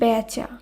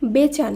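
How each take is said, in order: First: The first vowel is an open ae sound. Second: The first vowel is a closer e sound. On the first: The speaker calls it right. "শব্দটি শুদ্ধ উচ্চারণ হবে" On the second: The speaker calls it wrong. "নয়"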